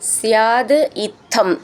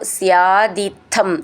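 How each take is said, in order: First: The words are said as separate words. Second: The words are run together without a break.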